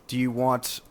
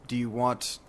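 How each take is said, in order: The two takes are said the same way.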